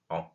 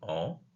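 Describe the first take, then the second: First: The nasal vowel is cut short. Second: The nasal vowel is held long. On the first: The speaker calls it right. "de la dire de manière beaucoup plus brève" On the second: The speaker calls it wrong. "Au lieu de dire en"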